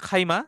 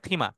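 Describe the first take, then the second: First: The first vowel is a gliding 'ai' sound. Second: The first vowel is a plain 'ee' sound. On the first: This is the formal classical form. "Classical উচ্চারণ হচ্ছে খাইমা" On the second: This is the everyday spoken form. "কথ্য ভাষায় বলে লুগাতুল আম মিয়াতে, তখন এটা হয়ে যায় খিমা"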